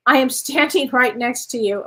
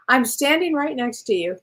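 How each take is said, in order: First: Reads the card line, breaking into a real laugh midway; laughing while reading. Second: Said in the usual way. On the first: Real, not acted. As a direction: let a laugh slip into the middle. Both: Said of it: "Oh, that's hilarious".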